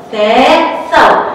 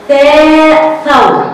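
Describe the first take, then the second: First: Said in the usual way. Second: ثاء ثور stretched very slowly, louder and higher; drawn-out sound drill. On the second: Shown as a demonstration. Teacher to children, drawing out ثاء ثور loudly. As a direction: pull out ثاء ثور for the class. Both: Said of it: "هتاخد صورة ايه تاني".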